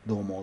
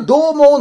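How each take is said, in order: First: どうも low and soft, thrown away; どうも said low and quiet, as a deliberate take; deliberate greeting. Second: どうも much higher and louder, sing-song; どうも shouted high, as he always opens; his odd greeting. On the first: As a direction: mutter どうも low on purpose. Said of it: "最近でもわざと言ってる". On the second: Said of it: "の言い方変かね". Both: Shown as a demonstration.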